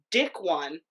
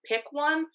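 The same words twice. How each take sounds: First: "dick one" with a D sound in place of the P; misread as "dick". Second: "Pick one." with a crisp, clear P and higher pitch. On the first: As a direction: swap the P in "Pick" for D: "dick one". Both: Shown as a demonstration. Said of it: "She thought I had seriously written".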